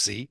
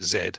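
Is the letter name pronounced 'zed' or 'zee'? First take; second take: zee; zed. First: The letter is said as 'zee'. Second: The letter is said as 'zed'. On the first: The speaker calls it right. "because they're American. I'm guessing it's Z" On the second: The speaker calls it wrong. "I've been mispronouncing the album's title"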